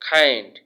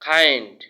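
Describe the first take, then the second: No difference in how they are said.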